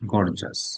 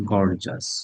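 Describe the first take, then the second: First: It is said with two syllables, gor-jus. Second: The same.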